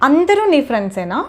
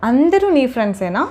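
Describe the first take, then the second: The two takes are said the same way.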